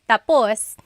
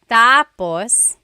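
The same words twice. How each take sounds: First: The stress is on the last syllable. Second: The stress is on the first syllable. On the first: It means finished. "when the emphasis is at the end" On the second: It means next. "When the emphasis is on the first syllable"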